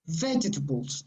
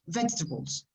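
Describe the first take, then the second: First: A very soft vowel is heard in the second syllable. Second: Said faster, with the second-syllable vowel dropped. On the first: "the second sound is very, very soft" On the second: "If you speak faster, it will disappear"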